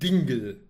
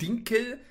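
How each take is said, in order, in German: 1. Der mittlere Konsonant ist ein weicher g-Laut. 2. Der mittlere Konsonant ist ein harter k-Laut. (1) "sondern Dingel" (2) "Er sagt nicht Dinkel"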